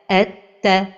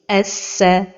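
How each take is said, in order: First: The doubled consonant sounds like t. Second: The doubled consonant sounds like s. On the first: "un son qui ressemble à la lettre Ta" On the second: "un son qui ressemble au son de la lettre Sin"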